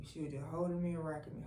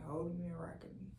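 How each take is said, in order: First: Said in the usual way. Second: Soft unvoiced whisper, a bit quick. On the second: Real, not acted. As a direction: hush it down to a breath. Repeats line as a hush.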